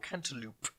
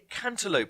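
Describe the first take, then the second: First: It is pronounced the British way. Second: It is pronounced the American way. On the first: The speaker calls it right. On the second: The speaker calls it wrong.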